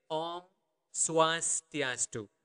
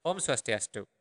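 First: Om Swastiastu slow, in separated syllables; slow teaching version. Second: Said in the usual way. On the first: Shown as a demonstration. Teacher showing learners how to say hello, slowly and clearly. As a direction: stretch out Om Swastiastu with a pause after Om. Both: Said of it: "That would be the normal speed".

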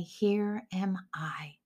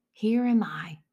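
First: Soft whisper, slow and reverent; whispered slowly to God in the night; whispered answer. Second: Said in the usual way. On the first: Acted. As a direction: breathe it like a humble reply to God. Eli teaches the answer.

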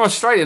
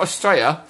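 First: "Australia" with the L and ending fully sounded; full Australia. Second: "Australia" squashed to fewer syllables; slurred Australia. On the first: Host correcting guest's country name, Australia said in full. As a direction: say "Australia" as oss-TRAY-lee-a. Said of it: "not Australia". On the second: Host mimicking guest's country name, Australia squashed. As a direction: say "Australia" as us-TRAY-ya. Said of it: "You're from Australia". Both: Shown as a demonstration.

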